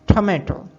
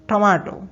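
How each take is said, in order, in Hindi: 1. यह शब्द अमेरिकन लहजे में बोला गया है। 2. यह शब्द ब्रिटिश लहजे में बोला गया है। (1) "अमेरिकन इंग्लिश में" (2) "ब्रिटिश इंग्लिश में"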